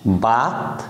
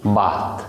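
First: Said in the usual way. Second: বাত with a pressed opening ব, low; lower, stressed বাত as in Sylheti for rice. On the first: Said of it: "বাত flat sound হওয়ার কারণে". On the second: Shown as a demonstration. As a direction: lean hard into the ব of বাত. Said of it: "যেই আমি একটা stress দিয়ে দিলাম".

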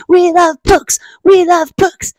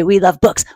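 First: High, loud group-cheer chant; chanted, cheer it out for a clapping crowd. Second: Said in the usual way. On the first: Pretend. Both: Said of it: "let's all clap and say".

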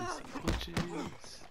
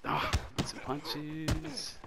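First: Squeaky mocking echo of himself; high teasing repeat. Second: Said in the usual way. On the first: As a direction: repeat it much higher, as a soft tease. Repeats the phrase differently.

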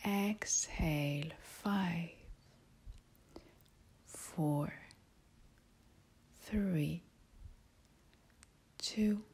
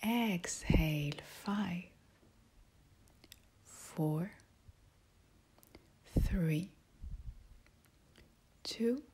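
The two takes are said the same way.

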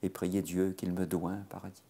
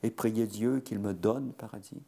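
First: Put-on "doit un" in the old form, evenly recited; reciting with "doit un". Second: "donne" in place of "doit un", set out firmly; reciting with "donne". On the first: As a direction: recite the line, savouring "doit un". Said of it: "je trouve ça beaucoup plus joli". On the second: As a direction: recite the line, leaning on "donne". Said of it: "L'oreille n'est pas contente". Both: Shown as a demonstration.

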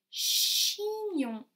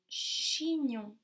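First: "Chignon" pitched much higher and louder, stressing chi; emphatic word. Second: Said in the usual way. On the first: Shown as a demonstration. Teacher to class, stressing the syllable chi. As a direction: call out "Chignon" high and loud, leaning on chi. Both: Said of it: "Cha, che, cho, chi ou chu?".

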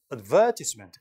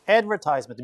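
First: Advertisement as "ad-VER-tis-ment"; British advertisement, punch VER, short tis; stress on second syllable. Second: Advertisement as "ad-ver-TIZE-ment"; long "eye" in advertisement; American pronunciation. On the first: Teacher echoing the recording, advertisement stressed on VER. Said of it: "강세가 이동하기 때문에". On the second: Teacher echoing the recording, American advertisement with "tize". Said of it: "미국식이고". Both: Shown as a demonstration.

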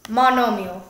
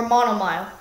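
First: "monomial" ending in mee-ul; "monomial" with a separate "-ee-ul" ending; usual pronunciation. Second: "monomile" ending like the word mile; "monomile" with a long i in the last syllable; alternative pronunciation. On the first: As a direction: say "monomial" as mah-NOH-mee-ul. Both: Shown as a demonstration. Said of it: "whatever you want to pronounce it".

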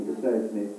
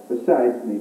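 First: Softer, throwaway repeat to himself; quiet aside. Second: Said in the usual way. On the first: Acted. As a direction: drop the voice for a muttered afterthought. Self-deprecating joke, repeated as aside.

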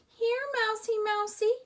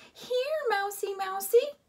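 First: High coaxing sing-song call. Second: High coaxing call, louder at the end; sing-song calling. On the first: Lena coaxing the hiding mouse, high sing-song. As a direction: coax the mouse out. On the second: Lena calling the mouse, high and coaxing. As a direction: coax the mouse again. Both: A narrator's reading. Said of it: "called Lena".

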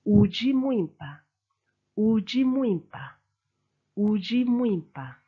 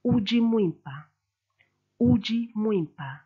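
First: Uji Mwimpa with the curved U and weight moving to Mwimpa; Chiluba he is. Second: Uji Mwimpa with the weight on Uji, falling; Chiluba phrase. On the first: Teacher models he or she is beautiful. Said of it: "He is or she is beautiful". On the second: Teacher models you are beautiful. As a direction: say Uji Mwimpa twice, evenly. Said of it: "I'll say you are beautiful". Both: Shown as a demonstration.

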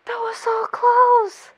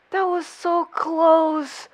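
First: High, slow, teary exclamation; overwhelmed squeal. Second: Slow, stretched exclamation; drawn-out relief. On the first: Viewer repeating over the near miss, high overwhelmed cry. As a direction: stretch CLOSE out high, nearly crying. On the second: Viewer reacting to a near miss, drawn-out exclamation. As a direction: draw each word out. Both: Real, not acted.

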